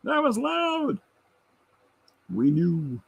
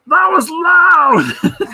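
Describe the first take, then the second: First: Softer mock shout. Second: Laughing shout, much higher, very slow and louder; screaming. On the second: Retold or imitated. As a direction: yell it like you've been half deafened. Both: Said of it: "He just screams it at me".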